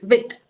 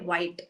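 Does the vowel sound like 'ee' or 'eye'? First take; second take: ee; eye. First: The vowel sounds like 'ee'. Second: The vowel sounds like 'eye'. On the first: The speaker calls it right. "the document clearly says it's pronounced as, you know, wheat" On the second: The speaker calls it wrong.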